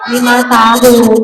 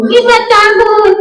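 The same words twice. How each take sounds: First: Said in the usual way. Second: High singsong puppet voice; high-pitched parroted answer; puppet pupil. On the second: Acted. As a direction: echo it high as a little puppet.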